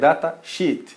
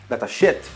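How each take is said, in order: First: The vowel in sheet is long. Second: The vowel in sheet is short. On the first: It means a document of technical data. The speaker calls it right. "a pronúncia é datasheet" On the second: It sounds like an insult about the data. The speaker calls it wrong. "ele vai entender que são dados de merda"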